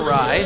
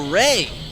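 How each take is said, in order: First: The vowel sounds like 'eye' in 'my'. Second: The vowel sounds like 'ay' in 'day'. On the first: The speaker calls it wrong. "not a rye" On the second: The speaker calls it right. "it's actually a ray"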